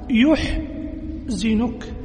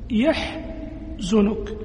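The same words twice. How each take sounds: First: The first syllable has the vowel u. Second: The first syllable has the vowel a. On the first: "بضم ياء المضارعة" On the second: "فتح ياء المضارعة"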